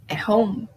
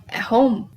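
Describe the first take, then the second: The two takes are said the same way.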